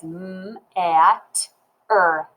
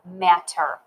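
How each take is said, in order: First: "m-at-er" slowly, sound by sound; "m-at-er" segmented, with a held m. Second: Said in the usual way. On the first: Shown as a demonstration. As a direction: stretch and separate the sounds of "m-at-er". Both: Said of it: "I sound it out as".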